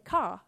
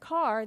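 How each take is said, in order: First: The word ends in an open 'ah' without R. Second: The word ends with a clear R sound. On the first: "the phonogram AR that says R, they say as ah" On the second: "instead of car"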